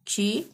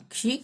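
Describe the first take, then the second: First: क्षि with the i drawn out long; long vowel. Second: क्षि with a short, cut-off i; short vowel. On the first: Teacher reciting syllables for learners, क्षि with long ee. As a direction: stretch the final vowel of क्षि into ee. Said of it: "बड़ी की मात्रा". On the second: Teacher reciting syllables for learners, क्षि with short i. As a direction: say क्षि with a brief final vowel. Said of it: "छोटी की मात्रा". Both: Shown as a demonstration.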